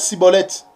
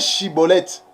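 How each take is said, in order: First: The word begins with an s sound. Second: The word begins with a sh sound. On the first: This is how the Ephraimites actually said it. The speaker calls it wrong. "Et ils prononçaient Cibolette" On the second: This is the form the speakers could not manage. The speaker calls it right. "Ils avaient du mal pour prononcer Chibolette"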